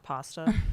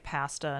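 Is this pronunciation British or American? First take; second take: American; British. First: It is said with an American pronunciation. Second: It is said with a British pronunciation. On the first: "not pasta" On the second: "sometimes the Brits have weird. You know, they say pasta"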